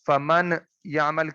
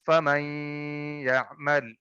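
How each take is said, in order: First: The n is pronounced clearly before the y. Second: The n merges into the y with nasalization. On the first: The speaker calls it wrong. "की बजाय" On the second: The speaker calls it right. "इस नून साकिन को हमने साइलेंट कर दिया ... या के साथ मिलाएंगे और साथ में गुन्ना भी करेंगे"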